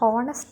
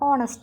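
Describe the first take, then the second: First: The word begins with an h sound. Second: The word begins with a vowel sound. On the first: The speaker calls it wrong. "ഇവിടെ ഹോണസ്റ്റ് എന്നല്ല പറയുന്നത്" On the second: The speaker calls it right. "ഓണസ്റ്റ് ആണ്"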